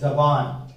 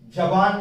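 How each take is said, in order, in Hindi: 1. यह शब्द 'z' की आवाज़ से शुरू होता है। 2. यह शब्द 'j' की आवाज़ से शुरू होता है।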